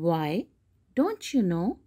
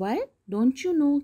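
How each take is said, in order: First: Why, don't you know? asked with a light lift of surprise; a touch of surprise, read from the book; mild surprise. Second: Put-on a girl amazed that the scarecrow doesn't know Oz; surprised. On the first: Acted. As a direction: read it as a gently puzzled question. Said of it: "she replied in surprise". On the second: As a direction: play Dorothy's astonishment for the class. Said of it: "Dorothy was surprised".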